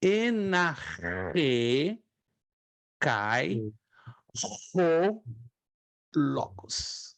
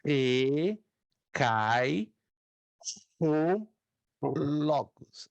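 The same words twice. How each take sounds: First: "Enarre cai o logos" again, each word set apart by pauses; teacher's dictation pace; slow repeated model. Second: "Enarre cai o logos" spaced out with long pauses; slow dictation. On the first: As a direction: repeat it slowly for the class. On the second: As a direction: read it word by word, pausing. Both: Shown as a demonstration. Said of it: "Repito uma vez mais".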